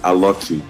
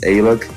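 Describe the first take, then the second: First: The name ends with an added final vowel. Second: The name ends sharply on the consonant. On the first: This is how people say it in Brazil. "they say Aloki here" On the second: This is how people say it in the US. "So if you go to U S, it's Alok"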